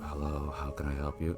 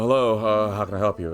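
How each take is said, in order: First: It is said in a quieter, softer voice. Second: It is said at a normal, louder volume.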